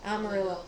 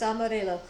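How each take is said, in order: First: The word is pronounced with English sounds. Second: The word is pronounced with English sounds.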